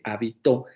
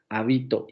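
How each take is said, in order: First: The stress is on the last syllable. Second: The stress is on the middle syllable. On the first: "Si recae al final de la, en la última sílaba" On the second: "Si cae en la penúltima sílaba"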